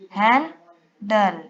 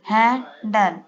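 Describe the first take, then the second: First: हैंडल said very slowly as हैं-डल; split into syllables. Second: Said in the usual way. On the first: Shown as a demonstration. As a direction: stretch हैंडल into two separate syllables. (हैंडल को धीरे से हैं-डल बोलें)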